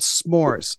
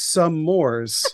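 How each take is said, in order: First: The word is said as one syllable. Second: The word is said as two syllables. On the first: The speaker calls it right. "They're called s'mores" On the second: The speaker calls it wrong. "Oh, I thought it was some mores"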